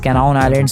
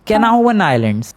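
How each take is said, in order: First: The name ends with an 'aun' sound, no v. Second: The name ends with a 'van' sound, with v. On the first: The speaker calls it wrong. "मैं पिछली बार उस island का नाम कैनाउन islands ... बोल रहा था, but नहीं" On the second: The speaker calls it right. "उसका रियल प्रोनाउंसिएशन है"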